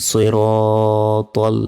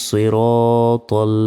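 No difference in how they are said.

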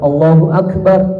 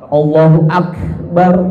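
First: The consonants carry a moderate, normal breathy release. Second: The consonants carry an exaggerated, excessive breathy release. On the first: The speaker calls it right. "hamasnya memang hamas yang standar, enggak keterlaluan" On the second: The speaker calls it wrong. "hamasnya keterlaluan"

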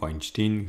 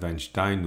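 First: The name is pronounced the American way. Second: The name is pronounced the German way. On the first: "à l'américaine" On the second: "à l'allemande"

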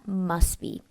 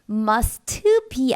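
First: The t in must is dropped before be. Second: The t in must is fully pronounced. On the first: The speaker calls it right. "발음까지만 나온 거 들으셨나요?" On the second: The speaker calls it wrong. "must be 아니라"

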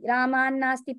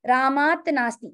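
First: The final t becomes n, joining the words. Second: The first word keeps its final t sound.

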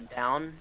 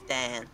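First: The vowel sounds like 'ow' in cow. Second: The vowel is flattened, sounding like 'Dan'.

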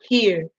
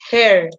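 First: The vowel is a front 'ee' sound. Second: The vowel is a central 'er' sound. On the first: The speaker calls it wrong. "nunca here" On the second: The speaker calls it right. "esto se dice her"

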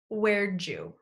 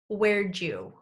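First: It is said as 'where'dja', with 'did' reduced to 'd' and linked into 'you'. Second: The same.

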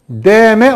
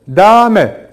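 First: The first vowel is thin and light. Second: The first vowel is slightly thickened, in between. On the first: The speaker calls it wrong. "Deme olmaz" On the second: The speaker calls it right. "Tam ortası"

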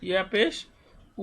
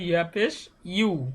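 First: The final syllable is a plain u vowel. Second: The final syllable starts with a y sound. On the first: The speaker calls it wrong. "না কিন্তু" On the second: The speaker calls it right. "এটা হবে ইয়া পেশ ইউ"

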